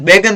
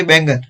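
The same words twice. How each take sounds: First: बैगन without the nasal, "be-gan"; wrong pronunciation. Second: बैंगन with a nasal before the g; correct pronunciation. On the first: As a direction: say बैगन with no n before the g. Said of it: "बैगन नहीं होता". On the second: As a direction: say बैंगन as "beng-gan". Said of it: "दो मात्रा होती है". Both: Shown as a demonstration.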